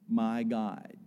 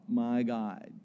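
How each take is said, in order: Both takes have the same delivery.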